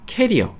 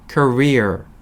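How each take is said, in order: First: The first vowel sounds like the 'a' in cat. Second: The first vowel sounds like the 'ur' in cur. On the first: It sounds like the word for a travel suitcase. The speaker calls it wrong. "캐리어, 캐리어 어, 이렇게 이야기하시는 분들이 있는데" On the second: It means a working life or professional history. The speaker calls it right. "커리어라고 하셔야 됩니다"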